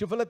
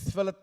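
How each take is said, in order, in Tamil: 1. இந்தச் சொல் 'sh' ஒலியில் தொடங்குகிறது. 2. இந்தச் சொல் 's' ஒலியில் தொடங்குகிறது. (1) "ஷிஃபலத் அப்படின்னு சொல்றதுக்கு பதிலாக" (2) "ஷ் சொல்றதுக்கு பதிலாக எஸ்"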